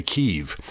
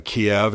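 First: "Kyiv" said the local Ukrainian way, close to one syllable KEEV; "Kyiv" in its Ukrainian form, a quick KEEV; Ukrainian pronunciation. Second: "Kiev" said the anglicized way, KEE-ev; "Kiev" in plain anglicized English, KEE-ev; English pronunciation. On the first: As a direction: say "Kyiv" as they say it there, not KEE-ev. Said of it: "That's how they would say it there". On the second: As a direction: say "Kiev" as English speakers do, two syllables KEE-ev. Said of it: "as we say in English". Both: Shown as a demonstration.

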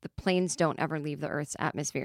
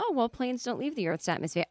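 First: Said in the usual way. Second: Higher, soft, patient pilot voice; gentle correction. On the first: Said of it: "And he was like". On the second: Retold or imitated. Pilot gently correcting the scared passenger. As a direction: correct her kindly, like calming a child. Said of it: "a pilot gently corrects her".

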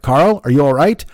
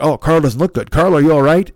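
First: Louder, put-on dramatic voice-over; mock concerned announcer. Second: Louder put-on narrator playing up fake tension; mock dramatic voice-over. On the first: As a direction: fake TV concern, hammed up. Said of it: "and they're like". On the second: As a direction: pump up the fake suspense. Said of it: "they'll be like".

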